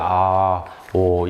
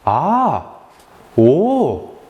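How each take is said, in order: First: It is said flatly, without feeling. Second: It is said warmly, with real feeling. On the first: The listener does not seem to empathize. The speaker calls it wrong. "이러면은 누가, 누가 공감한다고 생각을 하겠어요?" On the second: The listener shows real empathy. The speaker calls it right. "진짜로 공감하듯이 표현을 해줘야 돼요"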